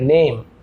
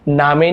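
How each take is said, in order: First: The vowel is 'ay' with no final vowel. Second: The vowel is 'aa' with a final vowel. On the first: The speaker calls it right. "ए ध्वनि निकल रहा है" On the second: The speaker calls it wrong. "ना आप इसे नामे नहीं बोल रहे हैं"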